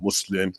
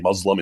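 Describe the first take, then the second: First: It is said with an Arabic pronunciation. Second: It is said with an American pronunciation. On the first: "instead of"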